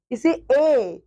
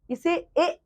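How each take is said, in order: First: ए opened into a drawn-out ऐ; raised ऐ sound. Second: ए as a short, unstretched vowel; unstrained short ए. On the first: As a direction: let ए rise and open as ऐ, then glide down. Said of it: "आवाज का स्तर थोड़ा ऊपर जाता है". (ए को ऊँचे स्तर पर, ऐ जैसा) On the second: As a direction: say ए plainly, no push from the throat. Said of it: "इसे भी हम ए बोलते हैं". (छोटा ए, बिना खींचे) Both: Shown as a demonstration.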